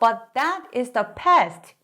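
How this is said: The pitch jumps up on the stressed word. The speaker calls it wrong.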